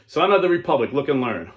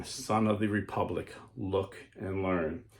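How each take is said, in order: First: Much higher and louder call; loud solemn proclamation; booming mysterious voice. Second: Softer, slow and ominous; slow hushed warning; hushed mysterious voice. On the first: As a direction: proclaim it like a heavenly summons. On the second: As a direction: let it sink into a hush. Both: Acted. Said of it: "the mysterious voice saying".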